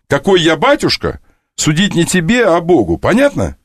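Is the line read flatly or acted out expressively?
expressively. The line is acted out with marked character intonation. The speaker calls it right.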